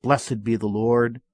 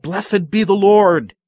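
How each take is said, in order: First: Said in the usual way. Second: High, loud joyful cry of praise. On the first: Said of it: "We have so much more reason to cry out". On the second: Retold or imitated. The church at Obed's birth calls out, loud and joyful. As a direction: lift it up like the rejoicing church. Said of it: "cried out".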